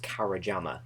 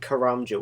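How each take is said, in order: First: The name is said with four syllables. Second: The name is said with three syllables. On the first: The speaker calls it wrong. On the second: The speaker calls it right.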